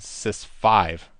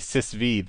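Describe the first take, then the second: First: The ending is said as the number five. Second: The ending is said as the letter V. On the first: "rather than sys five" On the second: "it's easier to say sysv"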